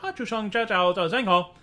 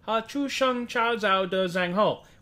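First: The phrase is said at a very fast pace. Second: The phrase is said at a slower pace. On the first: "Which is very fast and doesn't fit the scansion" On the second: "which is not quite pronounced the same way they pronounce it"

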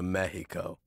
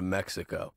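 First: Mexico is said with a Spanish-style pronunciation. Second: Mexico is said with an English pronunciation. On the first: This is the way the locals say it. "I'm not going to Mexico" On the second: The speaker insists on the familiar local name. "I'm going to Mexico"

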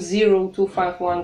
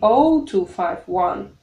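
First: The first digit is said as zero. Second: The first digit is said as oh. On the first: The speaker calls it wrong. "Не говорим 0251" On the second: The speaker calls it right. "Нолик мы произносим как буква O"

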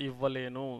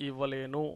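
Both takes have the same delivery.

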